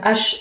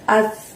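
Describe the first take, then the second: First: The consonant is a hush, not against the teeth. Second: The consonant is thin, tongue tip at upper teeth. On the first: The speaker calls it wrong. "bukan ash" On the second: The speaker calls it right. "tipis, ... ujung lidah kamu dorong ke gigi atas"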